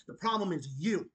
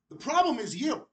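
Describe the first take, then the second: First: Said in the usual way. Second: "problem" stressed, rising at the end; pointed repeat. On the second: Shown as a demonstration. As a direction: hit "problem" and lift the last word.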